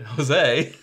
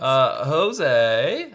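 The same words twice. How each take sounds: First: The stress falls on the usual syllable. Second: The stress falls on an unusual syllable. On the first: The speaker calls it right. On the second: The speaker calls it wrong.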